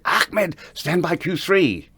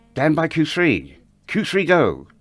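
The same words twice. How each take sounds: First: Higher, slow, insistent call to the switchboard; retold urgent cue call. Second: Higher, slow, pressing repeat of the call; retold insistent cue repeat. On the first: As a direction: call the cue across the stage, pressing. Calling the cue to Ahmed. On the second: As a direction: say it again, leaning harder on it.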